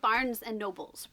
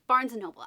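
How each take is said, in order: First: The last word ends with an added s sound. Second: The last word ends without any s sound. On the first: The speaker calls it wrong. "Everyone says Barnes and Nobles" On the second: The speaker calls it right. "It's Barnes and Noble"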